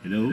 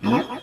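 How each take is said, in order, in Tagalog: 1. Ang boses ay natural, walang epektong inilapat. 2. Ang boses ay mataas at parang chipmunk. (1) "yun na yung normal" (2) "Para siyang chipmunk"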